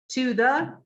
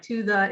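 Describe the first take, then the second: First: "To the" said fully, each vowel clear; full form. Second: "to the" reduced to schwa, tuh-thuh; weak form. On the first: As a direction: say "To the" in its strong form. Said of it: "does not sound like". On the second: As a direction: say "to the" weak and quick. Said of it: "in a sentence when we say it". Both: Shown as a demonstration.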